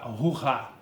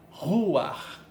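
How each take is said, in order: First: The word ends on an open vowel sound. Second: The word ends with a guttural consonant sound. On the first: The speaker calls it wrong. "você não vai pronunciar ruá" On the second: The speaker calls it right. "você vai pronunciar ruar"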